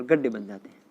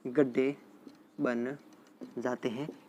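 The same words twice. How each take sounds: First: Said in the usual way. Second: गड्ढे, pause, बन, pause, जाते हैं, trailing softer; word-by-word for students taking notes; dictation pace. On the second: Real, not acted. Teacher repeats phrase slowly for notes.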